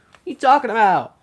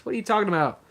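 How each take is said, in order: First: Higher, louder disbelieving outburst; can't believe what you just heard; incredulous. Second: Said in the usual way. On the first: Real, not acted. Hears surprise news, repeats.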